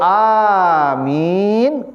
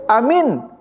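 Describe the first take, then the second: First: The vowels are said long. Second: The vowels are said short. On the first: It means: grant it, O God. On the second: It means: believe it.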